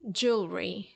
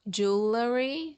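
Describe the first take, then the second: First: The L runs straight into the R. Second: A vowel sounds between the L and R. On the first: The speaker calls it right. "the sound of the letter L comes right before the sound of the letter R" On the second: The speaker calls it wrong.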